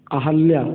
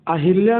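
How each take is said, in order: First: अहल्या said a-hal-ya, no i sound; correct form. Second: अहिल्या said a-hil-ya with a clear i; wrong form. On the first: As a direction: say अहल्या firmly with a short a. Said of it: "बल्कि अहल्या होता है". (सही रूप अहल्या, साफ़ उच्चारण) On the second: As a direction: read अहिल्या as the wrong version. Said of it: "अहिल्या नहीं होता". (गलत रूप अहिल्या) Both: Shown as a demonstration.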